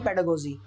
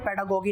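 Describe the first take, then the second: First: The consonant before the last vowel is a j. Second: The consonant before the last vowel is a hard g. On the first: The speaker calls it right. "Pronunciation गलत है, पेडागोगी नहीं पेडागोजी" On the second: The speaker calls it wrong. "पेडागोगी नहीं"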